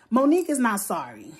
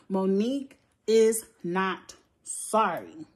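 First: Said in the usual way. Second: MONIQUE IS NOT SORRY slowly, a pause between words; word-by-word emphasis. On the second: Real, not acted. Insisting to viewers about Monique, "Monique is not sorry" slowly word by word.

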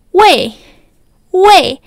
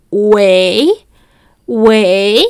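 First: "wei" high and louder, dropping sharply; fourth tone wei. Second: "wei" low and rising, like a short question; second tone wei. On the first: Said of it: "es de cuarto tono". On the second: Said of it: "que es con segundo tono". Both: Shown as a demonstration.

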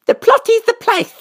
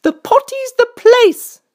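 First: Put-on very high small-child voice, lightly lisped; squeaky, proud child character; proud little princess. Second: High, slow, louder queenly pronouncement; high, loud storybook queen. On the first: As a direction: proudly parrot it like a tiny princess. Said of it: "said the little princess proudly". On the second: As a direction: declare it slowly and firmly as the high-voiced queen. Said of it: "said the queen". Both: A narrator's reading.

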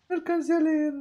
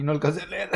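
First: No alcancé a leer jumped way up high in a silly squeak; mock squeaky voice. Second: Said in the usual way. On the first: Streamer jokingly squeaks No alcancé a leer up high.

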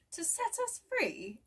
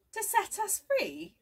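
First: Francis, amazed. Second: Jeremy, amazed. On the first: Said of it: "asked Francis". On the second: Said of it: "asked Jeremy". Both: A narrator's reading.

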